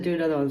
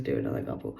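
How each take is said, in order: First: Said in the usual way. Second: Much lower, quoting her father's instruction; imitating father. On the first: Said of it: "My father said". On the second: Quoting her father's order to pull more cards, in a deep mock voice. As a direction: drop way down to mimic the father. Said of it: "but he says".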